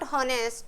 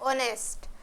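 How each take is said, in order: First: The word begins with an h sound. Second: The word begins with a vowel sound. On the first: The speaker calls it wrong. "Not হনেস্ট" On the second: The speaker calls it right. "এর উচ্চারণ হবে অনেস্ট"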